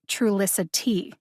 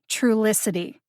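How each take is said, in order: First: The last T is pronounced crisply and fully. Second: The last T is softened, almost swallowed. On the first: The speaker calls it wrong. "instead of" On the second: The speaker calls it right. "You need to eat the T on the last syllable"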